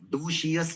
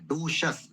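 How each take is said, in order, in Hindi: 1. अंत को खींचकर 'shee-us' बोला जाता है। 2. अंत एक छोटा सा शब्दांश है, 'shus'। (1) "डोशियस नहीं, गलत है वो" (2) "डोशस बोलना है"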